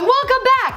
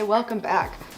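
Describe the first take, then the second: First: It is said with loud, high energy. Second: It is said calmly, with low energy.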